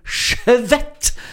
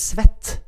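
First: The word begins with an sh sound. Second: The word begins with a plain s sound. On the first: The feeling is extra strong. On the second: The feeling is mild.

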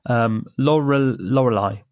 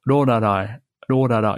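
First: It is said with English l sounds. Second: It is said with Japanese-style r sounds.

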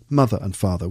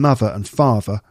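First: The th sounds are kept as th. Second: The th sounds are fronted. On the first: "rather than mother and father" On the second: "and mother and father rather than"

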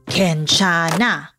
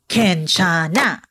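Both takes have the same delivery.

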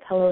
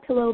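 First: It is said with a Western Pennsylvania accent. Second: It is said without a regional accent. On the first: This is how the speaker's region says it. "I say pillow, because Western PA" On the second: This is how others outside the region say it. "not pillow"

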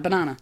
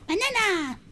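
First: It is said in her normal voice. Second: It is said in a squeaky Minion voice.

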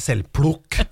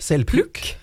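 First: It is said in Kongsberg dialect pronunciation. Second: It is said in standard Norwegian pronunciation.

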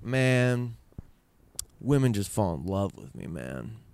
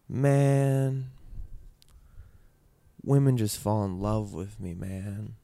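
First: The voice sounds arrogant and boastful. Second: The voice sounds sad and downcast. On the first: The father is boasting about himself. "he said it more like... such fucking arrogance. Such hubris" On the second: The teller's own sadness leaks into the quote. "I made that sound sad because I got sad when I was doing it"

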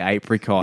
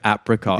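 First: Apricot is said in an Australian accent. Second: Apricot is said in an American accent. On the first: "Like Australians would say apricot" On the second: "Americans say apricot"

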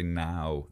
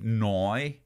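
First: The vowel is a plain standard 'ow' sound. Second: The vowel sounds like 'oi', Northern Irish style. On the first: "they don't say now" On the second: "when people from the north of Ireland say, ... they say noi"

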